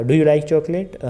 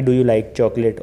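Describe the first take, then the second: First: "Do you like chocolate" higher, rising as a lively question; varied intonation. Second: "Do you like chocolate" on one level pitch, with no rise; monotone. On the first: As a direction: lift the pitch through "Do you like chocolate". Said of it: "ऊपर गया आपका voice pitch". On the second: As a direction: recite "Do you like chocolate" evenly, like a memorized question. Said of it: "एक ही flow में बोलते रहते हो". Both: Shown as a demonstration.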